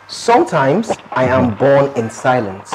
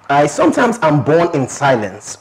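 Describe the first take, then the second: First: It is said slowly. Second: It is said fast.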